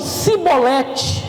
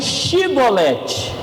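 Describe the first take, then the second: First: The word begins with a plain s sound. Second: The word begins with a sh sound. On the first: This is how the people of Ephraim said it. "Os de Efraim diziam" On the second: This is how the people of Gilead said it. "os de Gileade diziam"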